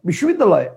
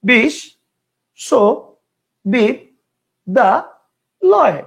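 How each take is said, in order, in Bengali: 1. শব্দটি একটানা, ভাগ ছাড়া উচ্চারিত হয়। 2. শব্দটি পাঁচটি আলাদা অংশে ভাগ হয়। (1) "একবারে বিশ্ববিদ্যালয়, কয়টা হলো? একটা।" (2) "কয়টা হলো? পাঁচটা।"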